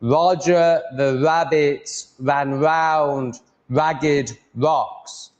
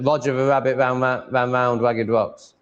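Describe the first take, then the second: First: Roger the rabbit ran round ragged rocks very slow with open mouth; slow and open on every R in Roger the rabbit; careful slow R. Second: Mumbled lazy R in Roger the rabbit ran. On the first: Asking viewers if his R sounds better, slow. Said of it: "Am I saying my R's better there". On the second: Contrasting his mumbled take for viewers. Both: Shown as a demonstration.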